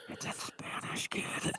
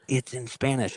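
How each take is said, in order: First: Put-on hushed aside to a child; retold whisper. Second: Said in the usual way. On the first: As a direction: whisper it discreetly to your son. Breaking news discreetly to his son.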